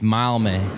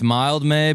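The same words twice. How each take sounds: First: The d at the end of 'Mild' is dropped. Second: The d at the end of 'Mild' is pronounced.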